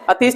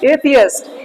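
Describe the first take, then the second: First: The word is said as two syllables, a-teest. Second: The word is said as three syllables, ay-thee-ist. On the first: The speaker calls it wrong. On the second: The speaker calls it right.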